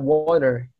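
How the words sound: The final R is clearly pronounced. "Kalau di American English kan mereka nyebutnya uh, water, the air is roll"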